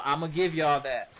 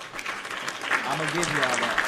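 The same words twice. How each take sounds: First: Said in the usual way. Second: "I'ma give y'all that" stretched out slowly, every word leaned on; slow drawn emphasis. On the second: Real, not acted. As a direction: drag it out to make the concession land. Conceding point, then stressing it.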